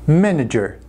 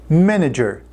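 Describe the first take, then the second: Both takes have the same delivery.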